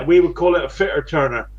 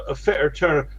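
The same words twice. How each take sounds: First: Fitter turner in a West Country burr; West Country accent. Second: Broad West Country fitter turner; West Country accent. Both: Real, not acted. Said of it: "that's my West Country accent".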